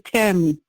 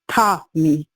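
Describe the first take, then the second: First: The name is said with an American accent. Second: The name is said with a Jamaican accent. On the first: "Like Americans say Tammy" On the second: "but Jamaicans say Tommy"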